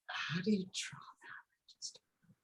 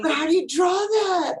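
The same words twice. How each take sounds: First: Hushed, helpless wondering, fading away; baffled whisper. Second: High, loud wail of helplessness; exasperated outcry. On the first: Stuck novice musing over a drawing, baffled whisper. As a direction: drop into a whisper, as if asking yourself. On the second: Stuck novice to the group, exasperated outcry. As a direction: cry it out, voice leaping up. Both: Real, not acted.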